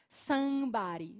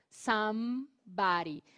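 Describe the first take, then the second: First: The M is only a nasal vowel, lips open. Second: The lips close fully for a clear M. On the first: The speaker calls it wrong. "não poderia ser assim" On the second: The speaker calls it right. "Você precisa fechar é, os lábios para fazer o som do M"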